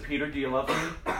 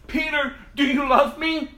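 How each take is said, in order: First: Said in the usual way. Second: Loud, high, insistent question; urgent demand. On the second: Acted. Jesus asking Peter a third time, urgent and forceful. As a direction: press the question with raised voice.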